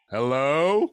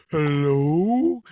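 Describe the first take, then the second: First: Loud nervous call. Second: Loud mock tough call; loud hello. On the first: Retold or imitated. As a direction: call out into the house. Calling into empty house. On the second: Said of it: "That's my defense".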